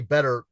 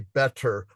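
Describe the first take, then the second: First: The middle consonant sounds like a soft D. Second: The middle consonant is a crisp, clear T. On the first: "I don't say better like with a D" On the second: "I say better with like two T's"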